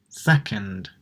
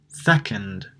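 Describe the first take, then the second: No difference in how they are said.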